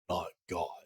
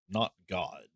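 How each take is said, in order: First: It is said in a put-on gruff voice. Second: It is said in the speaker's ordinary voice.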